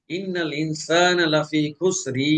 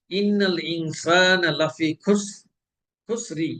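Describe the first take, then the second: First: Slow ইন্নাল ইনসানা লাফি খুসরি, vowel held long; wrong lengthened vowel. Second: Slow খুসরি ending in a short i; correct short kasra. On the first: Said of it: "তাহলে এটা মাদ হয়ে যাবে". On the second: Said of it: "রয়ের নিচে দুই জের". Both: Shown as a demonstration.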